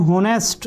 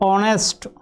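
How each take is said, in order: First: The word starts with an h sound. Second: The word starts with a vowel sound. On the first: The speaker calls it wrong. "जो Hindi medium से लोग रहते हैं वो इसे पढ़ते हैं होनेस्ट, और जो आपका पढ़ने का तरीका वो गलत है" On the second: The speaker calls it right. "यह है ऑनेस्ट"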